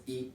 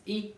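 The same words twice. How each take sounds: First: "I" said low; lower-pitched vowel. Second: "I" lifted high; higher-pitched vowel. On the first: Teacher showing one of two ways, low "I". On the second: Teacher showing the other way, high "I". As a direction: raise the pitch on "I". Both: Shown as a demonstration. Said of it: "two way of saying this".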